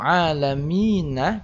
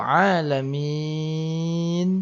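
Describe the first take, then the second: First: The vowel before the final n is kept short. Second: The vowel before the final n is drawn out long. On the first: The reciter continues without stopping. "maka mi cukup mina" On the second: The reciter stops at this word. "Kalau alamin dia lebih panjang"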